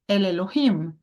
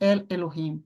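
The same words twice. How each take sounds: First: The stress falls on the final syllable. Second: The stress falls on the first word El. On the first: The speaker calls it right. "aqui você vai ler El Elohim" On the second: The speaker calls it wrong. "e não El Elohim"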